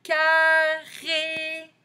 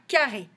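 First: Carré high and loud, both syllables held long; drawn-out syllables. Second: Said in the usual way. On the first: Shown as a demonstration. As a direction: sing out CAR, RÉ slowly. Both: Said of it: "dans le deuxième".

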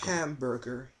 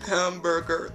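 First: Softly mumbling Hamburger, barely voiced; quiet hamburger. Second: Hamburger pitched up, said with a strained odd voice; higher hamburger. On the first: Agent obeying a rude caller, said quietly. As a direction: say Hamburger under your breath, meekly. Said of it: "Just say hamburger". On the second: Pretend. Agent tries again for the angry caller, pitched up. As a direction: try Hamburger again in a raised put-on voice. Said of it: "I said say hamburger".

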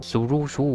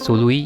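First: Name misread as ซูรุชู with a ชู ending; first misreading. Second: Name read as ซูรุย with a ย ending; corrected reading. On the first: Streamer first misreads the trader's name. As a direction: read the name as ซูรุชู before correcting. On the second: Streamer rereads the trader's name correctly. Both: Shown as a demonstration. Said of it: "อ่านว่าซูรุย".

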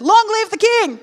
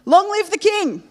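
First: Very high, loud jubilant cry; triumphant shout. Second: High, loud ringing cry; triumphant cry. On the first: Daniel answering the king, retake, jubilant shout. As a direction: shout it out in victory. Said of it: "Let's try that again". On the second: Daniel answering the king from the den, triumphant. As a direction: proclaim it like a victory. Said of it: "Oh, okay. I thought you would have been like". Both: Acted.

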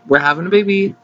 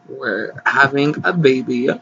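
First: Put-on higher, punchier repeat of the baby news; excited. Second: Said in the usual way. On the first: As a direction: burst out the news the second time. Announcement repeated louder.

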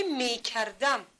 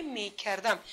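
First: Slow, careful word. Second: Said in the usual way. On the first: Shown as a demonstration. Teacher presenting the word to pupils, slow and careful. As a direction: space out می, کر, دم a little.

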